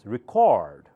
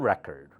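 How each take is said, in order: First: The stress is on the second syllable. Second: The stress is on the first syllable. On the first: It is a verb. "The second syllable becomes the louder" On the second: It is a noun. "read louder because it's noun"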